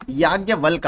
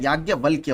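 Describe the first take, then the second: First: याज्ञवल्क said ending on a bare k, with no final य sound; याज्ञवल्क clipped as "yagyavalk", the wrong form; wrong spelling said. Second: याज्ञवल्क्य said with a clear final य, "yagyavalkya"; correct spelling said. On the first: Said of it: "याज्ञवल्क आपका गलत है". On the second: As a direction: give याज्ञवल्क्य its full closing "kya". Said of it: "याज्ञवल्क्य होता है". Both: Shown as a demonstration.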